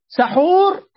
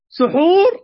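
First: The first syllable has the vowel a. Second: The first syllable has the vowel u. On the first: It means the food itself. "سحور أي طعام نفسه" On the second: It means the act of eating. "سحور أي دا أكل"

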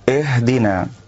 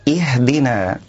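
First: The first vowel is tilted toward an 'e' sound. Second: The first vowel is a full, clear 'i' sound. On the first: The speaker calls it wrong. "إمالة همزة الوصل" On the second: The speaker calls it right. "والصواب أن نحقق الكسر"

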